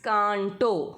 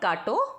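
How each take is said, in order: First: The first vowel is nasalized through the nose. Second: The first vowel is oral, without nasal sound. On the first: The speaker calls it right. "It's कांटो" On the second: The speaker calls it wrong. "It's not काटो"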